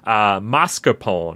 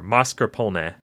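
First: It is said with an Americanized pronunciation. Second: It is said with a more authentic pronunciation. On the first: The speaker calls it wrong. "the dumb American pronunciation" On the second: The speaker calls it right. "what I think the real pronunciation is"

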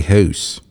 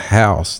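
First: The word is said in an Eastern Virginia accent. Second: The word is said in a general American accent. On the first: "they would say house" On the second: "instead of house"

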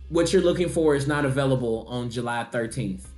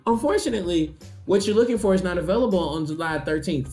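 First: It is said in a normal pitch. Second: It is said in a raised, high pitch.

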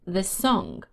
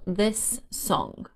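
First: A single s sound joins the words. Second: Two separate s sounds are heard.

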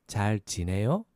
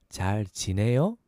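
No difference in how they are said.

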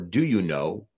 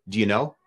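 First: Each word is said fully and separately. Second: The words are run together and reduced. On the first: "we don't say" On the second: "Where we skip over these things"

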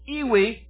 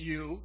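First: It is said in two syllables, like 'ee-wee'. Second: It is said in one syllable, like 'you'. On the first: The speaker calls it wrong. "I like to pronounce it as it looks" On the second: The speaker calls it right. "I know it's you"

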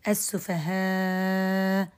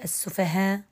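First: The long vowel is held for six counts. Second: The long vowel is held for two counts.

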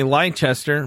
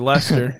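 First: The name is said with an American pronunciation. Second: The name is said with a British pronunciation. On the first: This is how outsiders say the name. The speaker calls it wrong. "As the Americans would say" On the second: This is the real local pronunciation. The speaker calls it right. "but it's really"

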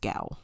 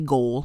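First: The word ends without an L sound. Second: The word ends with an L sound. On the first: The speaker calls it right. "But it's gow" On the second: The speaker calls it wrong. "I want to say goal because my brain keeps trying to flip the O and the A"

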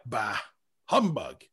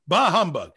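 First: Bah is a casual, offhand eh. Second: Bah is said forcefully and emphatically.

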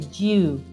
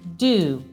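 First: A y-glide is heard before the vowel. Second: No y-glide is heard before the vowel. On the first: "in British English" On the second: "in americano invece si pronuncerebbero così"

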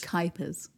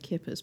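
First: The first syllable rhymes with sky. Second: The first syllable sounds like kip. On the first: The speaker calls it right. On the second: The speaker calls it wrong. "but that's not quite right either"

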